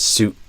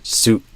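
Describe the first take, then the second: First: The final T is a sudden throat stop. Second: The final T is a sudden throat stop.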